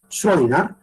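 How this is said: The name is said in German, ending in an a sound. The speaker calls it right. "él era alemán, por lo tanto el apellido es Schrödinger... Se pronuncia con una A al final"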